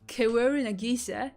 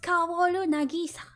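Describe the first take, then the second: First: The A is said like 'ay', American style. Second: The A is said like an open 'ah'. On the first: The speaker calls it wrong. "It's not Kaworu Nagisa" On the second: The speaker calls it right. "It's Kaworu Nagisa"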